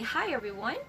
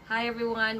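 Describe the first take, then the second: First: It is said with lively, natural up-and-down intonation. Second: It is said flat and monotone, like a robot. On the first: The speaker calls it right. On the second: The speaker calls it wrong.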